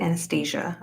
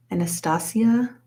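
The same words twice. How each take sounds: First: Anastasia said an-uh-STAY-zhuh; "ay" pronunciation. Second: Anastasia said ah-nuh-STAH-see-uh; "ah" pronunciation. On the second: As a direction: give Anastasia an open "STAH-see-uh" ending, questioning. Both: Shown as a demonstration. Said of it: "Or is it Anastasia?".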